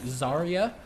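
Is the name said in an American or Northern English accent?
American. Said in an American accent, Y like 'ee'. "if I was to do an American accent, they'd be like Zarya, so like the Y makes like an E noise"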